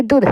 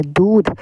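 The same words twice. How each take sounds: First: दूध as a brief "dudh"; short vowel. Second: दूध with a long held oo; long vowel. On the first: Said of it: "जल्दी बोल रहे हैं". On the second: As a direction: stretch the oo in दूध. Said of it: "ये सही है". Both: Shown as a demonstration.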